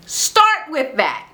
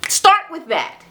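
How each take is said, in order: First: "Start with that" said slowly, each word weighted; slow, deliberate emphasis on "Start with that"; slow emphatic. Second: Said in the usual way. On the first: Shown as a demonstration. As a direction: spell it out slowly like advice.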